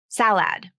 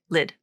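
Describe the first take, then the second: First: The vowel sounds like the 'a' in 'cat'. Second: The vowel sounds like the 'i' in 'sit'. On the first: The speaker calls it wrong. "It's not salad" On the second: The speaker calls it right. "It's that short I sound"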